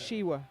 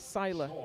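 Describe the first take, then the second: First: The middle consonant is said like an English W. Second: The middle consonant is said like an English L. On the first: The speaker calls it right. "pronounced Shiwa" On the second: The speaker calls it wrong. "I've always called it Sila"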